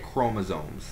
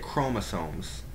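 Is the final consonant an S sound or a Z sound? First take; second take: Z sound; S sound. First: The word ends with a Z sound. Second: The word ends with an S sound. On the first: "like a Z sound" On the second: "some people might say chromosomes"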